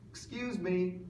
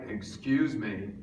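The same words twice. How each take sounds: First: The voice is higher and thinner, without chest resonance. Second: The voice is low and resonant, from the chest. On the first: It fails to get anyone's attention. The speaker calls it wrong. "they don't turn around" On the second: It captures everyone's attention. The speaker calls it right. "If I get it just right"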